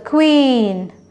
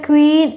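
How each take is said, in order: First: The vowel is said long. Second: The vowel is said short. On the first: The speaker calls it right. "it's a queen. Double E sound is coming" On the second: The speaker calls it wrong. "It's not a queen"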